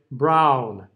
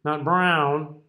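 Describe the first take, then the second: First: Brown with the jaw dropped on an open ah. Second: Brown pushed into the nose; nasal brown. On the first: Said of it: "I'm dropping my jaw". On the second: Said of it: "don't stick it in your nose". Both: Shown as a demonstration.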